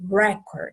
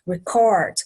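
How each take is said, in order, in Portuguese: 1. A tônica está na primeira sílaba. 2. A tônica está na segunda sílaba. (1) "Aí já é a primeira sílaba que é tônica" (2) "é o final dessa palavra que vai ter a sílaba tônica"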